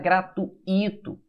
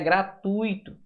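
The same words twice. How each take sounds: First: The u and i are split into separate syllables. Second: The u and i are joined in one syllable. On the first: The speaker calls it wrong. "Não existe a palavra gratuito" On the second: The speaker calls it right. "O certo é gratuito"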